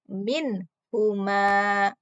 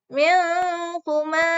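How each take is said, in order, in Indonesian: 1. Bunyi n diucapkan dengan jelas dan tegas. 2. Bunyi n samar, tidak terucap dengan jelas. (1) "Maka dibaca jelas" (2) "Tidak boleh"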